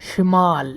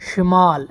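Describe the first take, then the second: No difference in how they are said.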